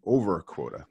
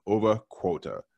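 First: "Over Quota" redone carefully without the Boston accent; corrected pronunciation. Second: "Over Quota" with a light, unguarded Boston accent. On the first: Shown as a demonstration. Host corrects his Boston slip on the show's name, careful standard pronunciation. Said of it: "That's better". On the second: Real, not acted. Host welcomes listeners to the podcast, Boston accent slipping out. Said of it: "My Boston accent came out there for a second".

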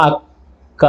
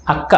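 First: అక్క drawn out slowly and softly. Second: Said in the usual way. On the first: Shown as a demonstration. Teacher showing pupils how అక్క is said, slowly. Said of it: "కొంచెం మెల్లగా". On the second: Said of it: "ఈ పలికే విధానం ఒక్కసారి ఆలోచించండి".

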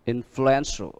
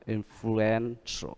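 First: Influential with stress on EN; influ-EN-tial, falling at the end; stress on third syllable. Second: Influential very slowly, softly, syllable by syllable; soft, drawn-out influ-EN-tial; slow stress demo. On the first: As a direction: model influential, leaning on EN. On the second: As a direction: break influential into parts, holding EN. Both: Shown as a demonstration. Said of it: "hai và ba".

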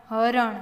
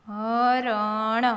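First: Said in the usual way. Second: Slow, each letter held; sounded out. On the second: Shown as a demonstration. Teacher breaking a word down for learners, sounded out. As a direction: stretch હરણ out as ha-ra-na.

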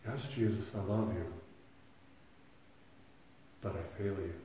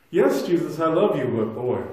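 First: Quiet confession. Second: A loud plea to Jesus, heart breaking open; loud anguished confession. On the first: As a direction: let the admission sink to a hush. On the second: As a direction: cry it out much louder, pleading. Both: Retold or imitated. Voicing a believer confessing failure.

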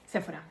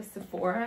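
First: "Sephora" said the Spanish way, SÉ-fo-ra, dropping lower; Spanish pronunciation. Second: "Sephora" said the English way, stress on the middle syllable; English pronunciation. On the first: Vlogger correcting herself for Spanish, "Sephora" as SÉ-fo-ra. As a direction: stress the first syllable of "Sephora", as in Spanish. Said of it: "En español". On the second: Vlogger showing how English says it, "Sephora" pronounced the English way. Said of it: "en inglés se dice Sephora". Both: Shown as a demonstration.

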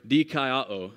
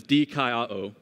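First: "dikaiō" said carefully as Greek, dee-KAI-oh; Greek word. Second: "dikaiō" again, dee-KAI-oh, a tentative best try; Greek word. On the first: Pastor trying Jason's Greek on the congregation, careful pronunciation. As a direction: slowly sound out "dikaiō" like a careful Greek attempt. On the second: Pastor admitting his best try at the Greek, tentative pronunciation. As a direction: offer "dikaiō" as a humble best attempt. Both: Shown as a demonstration. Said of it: "the best I can pronounce it is".

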